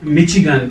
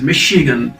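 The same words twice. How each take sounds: First: The middle consonant is a ch sound. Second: The middle consonant is a sh sound. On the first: The speaker calls it wrong. "this is not Michigan" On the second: The speaker calls it right. "Sure sound is there"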